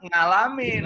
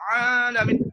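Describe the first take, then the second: First: The word begins with a nasal 'ng' sound. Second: The word begins with a strong throat consonant. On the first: The careful sound was misheard and copied. The speaker calls it wrong. "santrinya salah dengar ... Harus diluruskan lagi" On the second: The sound is pronounced with great care. The speaker calls it right. "mau mengucapkan ain supaya benar, jangan sampai keliru dengan hamzah, saking hati-hatinya"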